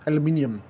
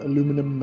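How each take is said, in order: First: The word is said with five syllables. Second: The word is said with four syllables. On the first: This is the official form. "if pronounced correctly, is aluminium" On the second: This is the casual everyday form. "obviously colloquial, it's uh, aluminum"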